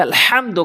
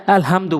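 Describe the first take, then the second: First: আলহামদু with a strong Arabic pharyngeal h; deep throat ha. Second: আলহামদু with a light, ordinary h; wrong pronunciation. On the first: Teacher corrects learners, heavy throat h in আলহামদু. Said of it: "বড় হা এনে উচ্চারণ করতে হবে". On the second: Teacher shows learners the faulty reading, light h in আলহামদু. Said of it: "নামাজ হবে না তো". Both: Shown as a demonstration.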